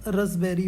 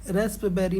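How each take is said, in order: First: रसबेरी as ras-berry, silent p; the right way, रसबेरी without the p; रसबेरी with the p dropped; correct pronunciation. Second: रस्पबेरी with the p sounded, ras-p-berry; the wrong way, voicing the p in रस्पबेरी; रस्पबेरी said with a clear p; wrong pronunciation. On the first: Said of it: "रसबेरी होगा". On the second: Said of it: "रस्पबेरी नहीं होगा". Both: Shown as a demonstration.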